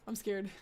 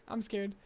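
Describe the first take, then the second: Both takes have the same delivery.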